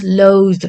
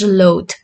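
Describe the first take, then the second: First: "loathe" ending in a voiced d-like sound; verb pronunciation. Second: "loath" ending in a hard, voiceless t; adjective pronunciation. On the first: Teacher introducing the verb, "loathe" with voiced ending. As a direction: say "loathe" as load, voiced at the end. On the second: Teacher introducing the adjective, "loath" with voiceless ending. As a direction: say "loath" as loat. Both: Shown as a demonstration. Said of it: "pronunciation is different".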